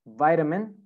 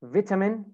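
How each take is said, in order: First: American "vitamin" with long i; American pronunciation. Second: British "Vitamin" with short i; British pronunciation. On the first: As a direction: say "vitamin" as VAI-da-min. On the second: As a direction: say "Vitamin" as VIT-a-min. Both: Shown as a demonstration.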